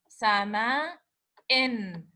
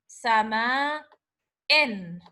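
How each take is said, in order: Both takes have the same delivery.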